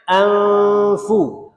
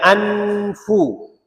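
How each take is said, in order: First: The n is hidden in a nasal hum. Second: The n is pronounced clearly and fully. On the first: "Dia baca dengung dia tu tak nyatakan nun" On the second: "tu tu nyata nun"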